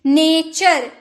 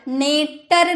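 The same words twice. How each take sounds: First: नेचर with "ch", as nay-chur; नेचर ending in a clear "chur"; correct CH pronunciation. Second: नेटर with a hard "t", as nay-tur; नेटर drawn out slowly, ending "tur"; wrong T pronunciation. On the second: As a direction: say नेटर as the misreading of nature. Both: Shown as a demonstration. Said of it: "नेटर नहीं".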